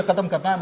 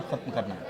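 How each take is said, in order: First: Said in the usual way. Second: Low, hushed restatement of खत्म करना है; quiet finality. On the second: Real, not acted. Panelist restating the minister's resolve to the anchor, quiet finality. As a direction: drop pitch and volume on खत्म करना है, as a settled matter.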